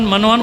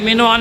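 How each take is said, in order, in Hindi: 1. पहले अक्षर में 'a' स्वर है। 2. पहले अक्षर में 'i' स्वर है। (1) "टीवी पे जो बैठ के बका करते हैं" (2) "तो भाई ये मिनोअन है"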